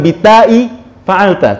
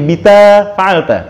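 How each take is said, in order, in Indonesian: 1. Nama huruf itu diakhiri hamzah. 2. Nama huruf itu tidak memiliki hamzah. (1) "jadi bukan bitai fa'alta" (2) "tapi bita fa'alta"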